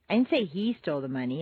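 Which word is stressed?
he. The stress is on the word he.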